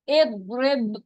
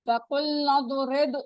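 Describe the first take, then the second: First: The word begins with an 'i' vowel. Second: The word is joined to the word before. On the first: Reading starts fresh at this word. "अगर हम यहाँ से स्टार्ट करें" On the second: Reading continues from the previous word. "नून बहुत के साथ मिल रहा है"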